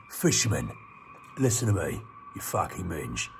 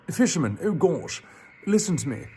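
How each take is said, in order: First: Fish voice. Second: The princely take of the line. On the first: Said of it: "what's a good voice for a fish". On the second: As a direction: redo the fish as a prince. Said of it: "he should have a princely voice". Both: Shown as a demonstration.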